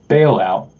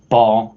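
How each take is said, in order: First: The vowel is an 'ay' sound, like bail. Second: The vowel is a long open 'ah' sound. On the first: It evokes an economic bank bailout. "I actually pronounce it bailout, like an economic bailout" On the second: It names the ancient Canaanite deity. "a lot of people pronounce it Baal"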